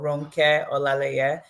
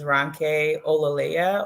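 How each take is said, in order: First: The name is said in a Nigerian accent. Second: The name is said in an anglicized accent.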